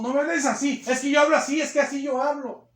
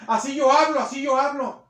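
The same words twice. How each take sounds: First: High, loud insisting retort; rude defensive reply. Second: Loud, high snapped retort; rude defensive shout. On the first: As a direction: defend your rudeness. (respuesta grosera alzando la voz) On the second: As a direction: throw it back defiantly. (réplica grosera y gritada) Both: Retold or imitated. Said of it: "y le grita a la gente".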